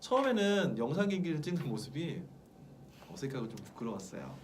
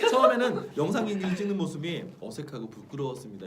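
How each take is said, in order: First: It is read with shy, embarrassed feeling. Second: It is read flatly, without real feeling. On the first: The feeling is real. The speaker calls it right. "진짜는 ... 이렇게 쑥스러워할 수도 있는 거고" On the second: The feeling is fake. The speaker calls it wrong. "이게 아니라"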